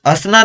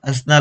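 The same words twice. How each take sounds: First: हंसना without its nasal, "asna"; wrong pronunciation. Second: हंसना with a nasal first syllable; correct pronunciation. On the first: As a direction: leave the n sound out of the first syllable of हंसना. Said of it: "हंसना नहीं होता". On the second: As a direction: say हंसना as "ans-na". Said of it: "अ के ऊपर चंद्र बिंदु होती है". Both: Shown as a demonstration.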